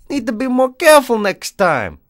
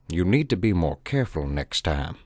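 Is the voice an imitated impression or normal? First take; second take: normal; imitated. First: It is read in the reader's normal voice. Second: It is read in an imitated celebrity's voice. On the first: The speaker calls it wrong. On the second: The speaker calls it right.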